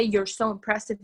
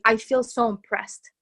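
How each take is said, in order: First: Said in the usual way. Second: Slow, heartfelt "I feel so impressed"; sincerely felt. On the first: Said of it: "it's not even to say". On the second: Shown as a demonstration. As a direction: let "I feel so impressed" land slowly, from the heart. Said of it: "It's to say".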